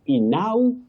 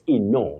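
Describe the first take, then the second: First: The 'au' is not said as long O. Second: The 'au' is said as long O. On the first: The speaker calls it wrong. "not inau. Inau, no" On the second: The speaker calls it right. "They combine to form the long sound O"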